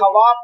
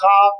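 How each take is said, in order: First: A 'w' sound is pronounced after the 'kh'. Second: The 'w' is silent after the 'kh'. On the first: The speaker calls it wrong. "खवाब ने बोलते" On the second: The speaker calls it right. "आप खाब बोलते हैं"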